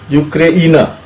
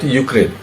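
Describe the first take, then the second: First: The name ends with an extra final 'a' vowel. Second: The name ends on a consonant, with no final vowel. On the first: This is how the local people say it. "Ukrainians actually pronounce Ukraine as Ukraina" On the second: This is the usual English form. "we will pronounce, pronounce it Ukraine"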